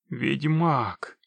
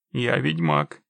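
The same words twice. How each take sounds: First: Understated, wondering mutter; stunned murmur. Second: Low, firm, falling delivery; firm statement. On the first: Man recognises the witcher, stunned murmur. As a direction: murmur it as realisation sinks in. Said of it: "пробормотал человек". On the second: Witcher explains he doesn't work free, low and firm. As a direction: drop the pitch and state it as final. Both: A narrator's reading.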